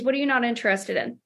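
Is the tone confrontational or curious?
curious. The question sounds soft, relaxed and curious. The caller is genuinely curious, not pushing back. "it's very important that you watch your tone here, but okay, Jason, no worries. I'm just curious"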